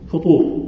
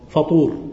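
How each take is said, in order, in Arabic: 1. الحركة الأولى هي u مدورة. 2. الحركة الأولى هي a مفتوحة.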